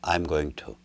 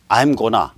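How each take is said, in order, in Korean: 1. 각 단어를 완전하고 따로따로 발음합니다. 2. 단어들이 빠르게 'gonna'로 줄어듭니다. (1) "고전적 발음을 해요" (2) "이런 식의 원어민적 발음을 안 합니다"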